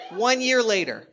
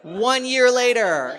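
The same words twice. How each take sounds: First: Loud punchy repeat of the line. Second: Big shouted buildup; loud shout. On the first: Comic repeating the time jump, still loud. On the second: Comic shouting the time jump to the audience. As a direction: bellow it to the crowd for effect. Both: Acted.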